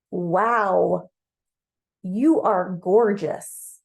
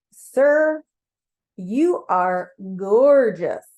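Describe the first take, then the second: First: Louder, drawn-out acted awe; awestruck admiration. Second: Loud, very drawn-out gushing, hammed-up; emphatic admiration. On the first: You to Mars on first seeing him, awestruck. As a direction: stretch it out in open admiration. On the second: You insisting to Mars on his beauty, emphatically awestruck. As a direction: insist on it, stretching each word out with force. Repeats the compliment, more insistently.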